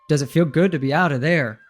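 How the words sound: The pitch falls at the end. It is an emphatic statement. "So there's a falling intonation rather than a rising intonation"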